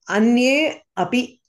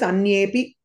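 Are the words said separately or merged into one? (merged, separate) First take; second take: separate; merged. First: The two words are said separately with both vowels. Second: The two words merge into one, dropping a vowel.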